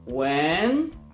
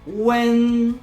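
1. Ton wznosi się jak w pytaniu. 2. Ton utrzymuje się wysoko, równo i długo. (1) "Ton głosu idzie do góry" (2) "To jest długi i wysoki dźwięk"

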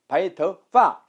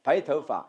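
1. 마지막 음절은 떨어지는 성조가 온전히 살아 있어요. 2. 마지막 음절은 성조가 약화돼서 약하게 돼요. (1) "원래는 바이터 시작 바이터 파 바이터 파 해야 되는데" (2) "약화돼서 어떻게 돼요? 바이터 파 시작 바이터 파 이렇게 됐죠"

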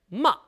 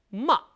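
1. 첫음을 세게 치고 짧게 떨어져요. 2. 첫음을 세게 치고 짧게 떨어져요.

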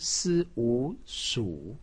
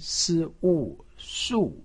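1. 音高先降到低，再升起来。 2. 音高从高急剧降到低。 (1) "三声" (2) "四声"

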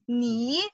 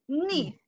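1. Die Tonhöhe steigt von mittel zu hoch. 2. Die Tonhöhe fällt stark von hoch zu tief. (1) "And the second tone?" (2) "And the fourth one?"

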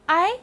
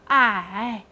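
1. 音高从中音升到高音。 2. 音高先降到低，再升起来。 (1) "二声I" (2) "三声I"

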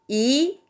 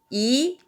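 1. 2성으로 발음합니다. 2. 2성으로 발음합니다.

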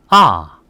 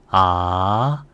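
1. 높은 데서 음이 급격히 떨어져요. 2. 음이 중간에서 높게 올라가요. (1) "사성은 일성 높이에서 때려줍니다" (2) "이성은 올려주세요"

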